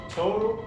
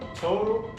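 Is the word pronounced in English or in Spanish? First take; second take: English; English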